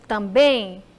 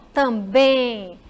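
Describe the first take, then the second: First: Said in the usual way. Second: "também" very slow, lingering on the final "bém"; final syllable drawn out. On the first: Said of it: "pronunciar mais forte determinadas palavras". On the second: Shown as a demonstration. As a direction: stretch and stress the end of "também". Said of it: "Ele me faz demorar um pouquinho no em". ("também" com o "bém" final forte e bem demorado)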